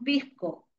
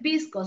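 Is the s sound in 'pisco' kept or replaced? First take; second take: replaced; kept. First: The s sound is changed to another sound. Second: The s sound is pronounced as a clear s. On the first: "Acá la S la cambian, cambian de sonido" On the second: "No dicen pisco"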